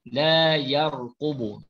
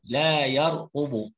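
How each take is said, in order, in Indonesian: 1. Suku kata itu terdengar seperti 'yar' dengan vokal terbuka. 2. Suku kata itu terdengar seperti 'yar' dengan vokal terbuka.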